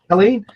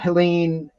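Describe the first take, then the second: First: The name starts without an H sound. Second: The name starts with an H sound. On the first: The speaker calls it right. "There's no, no H" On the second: The speaker calls it wrong. "Was that I mispronounced it?"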